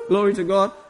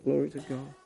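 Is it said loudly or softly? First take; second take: loudly; softly. First: It is said loudly and exuberantly. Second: It is said quietly, in muted tones.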